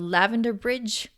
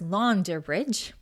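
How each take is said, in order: First: The middle letter is said as a V sound. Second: The middle letter is said as a U vowel. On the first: This is the modern reading. "I might be saying this wrong" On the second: This is how it may once have been said. "they might have said it as Launder Bridge"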